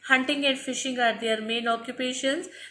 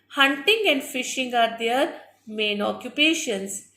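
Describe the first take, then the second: First: It is read quickly. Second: It is read slowly.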